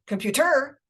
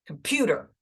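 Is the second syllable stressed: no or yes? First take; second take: no; yes. First: The stress falls on a syllable other than the second. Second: The stress falls on the second syllable. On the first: The speaker calls it wrong. "not computer" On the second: The speaker calls it right. "So the pew is the stress syllable there"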